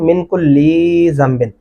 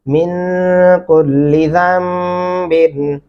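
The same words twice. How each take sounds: First: The l sound is stretched out long. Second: The l sound is held short. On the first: The speaker calls it wrong. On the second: The speaker calls it right.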